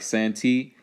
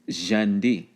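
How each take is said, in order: First: It begins with an s sound. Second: It begins with a j sound.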